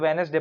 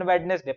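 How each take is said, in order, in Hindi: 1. बीच का "d" silent है। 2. बीच का "d" बोला जाता है। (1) "डी को साइलेंट कर देते हैं यहाँ पर, तो वेनेसडे पढ़ते हैं" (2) "अपन वेडनेसडे पढ़ेंगे"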